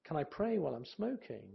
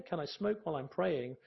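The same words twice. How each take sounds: First: Can I pray while I'm smoking with pray lifted; stress on praying. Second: Can I smoke while I'm praying with smoke lifted; stress on smoking. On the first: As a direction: lean on the word pray. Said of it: "The emphasis on praying". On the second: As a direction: lean on the word smoke. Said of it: "the emphasis on smoking". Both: Shown as a demonstration.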